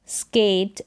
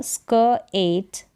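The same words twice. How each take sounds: First: Said in the usual way. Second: स्क एट split by a pause; two separate parts, स्क and एट; sounded out. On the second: Shown as a demonstration. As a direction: say स्क, wait, then एट. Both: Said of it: "एससी को स्क".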